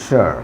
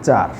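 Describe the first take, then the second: First: The suffix starts with an sh sound. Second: The suffix starts with a ch sound. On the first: The speaker calls it right. "যেটাকে আমরা বলি শার" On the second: The speaker calls it wrong. "Banglish উচ্চারণ হচ্ছে চার"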